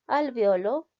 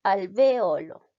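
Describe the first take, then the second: First: "Alveolo" said as al-vyo-lo, the e and o run together; "Alveolo" squeezed into three syllables, al-vyo-lo; two pronunciations. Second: "alveolo" slowly and louder, al-ve-o-lo, stress on the o; "alveolo" spelt out in four syllables, al-ve-O-lo, drawn out; slow careful variant. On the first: ("Alveolo" en tres sílabas, al-vio-lo) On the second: ("alveolo" lento, en cuatro sílabas, al-ve-O-lo) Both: Shown as a demonstration. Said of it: "Algunos hablantes dicen poliglota, otros políglota".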